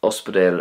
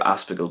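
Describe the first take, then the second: First: Ospidéal with o and d; Munster ospidéal. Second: Ospidéal as aspigal; Connacht ospidéal. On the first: Teacher lists forms usable in Ulster, ospidéal with d. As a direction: end ospidéal in dayl. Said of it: "you could still use". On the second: Teacher lists forms usable in Ulster, aspigal with g. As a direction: turn the d of ospidéal to g. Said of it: "hear it being pronounced like this". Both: Shown as a demonstration.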